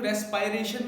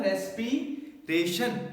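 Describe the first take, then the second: First: ਰੈਸਪਾਇਰੇਸ਼ਨ said as res-pie-ray-shun; respiration with eye. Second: ਰੈਸਪੀਰੇਸ਼ਨ said slowly as res-pee-ray-shun; respiration with ee. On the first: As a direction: say ਰੈਸਪਾਇਰੇਸ਼ਨ with an eye sound in the middle. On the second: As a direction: spell out ਰੈਸਪੀਰੇਸ਼ਨ with an ee sound, slowly. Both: Shown as a demonstration. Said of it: "ਕਈ ਲੋਕ ਇਹਨੂੰ ਰੈਸਪਾਇਰੇਸ਼ਨ ਵੀ ਬੋਲਦੇ ਆ".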